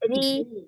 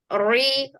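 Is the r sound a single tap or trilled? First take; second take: single tap; trilled. First: The r sound is one light, single tap. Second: The r sound is rolled with several taps. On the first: The speaker calls it right. "Tipis saja" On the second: The speaker calls it wrong. "ri itu masih ada takrirnya"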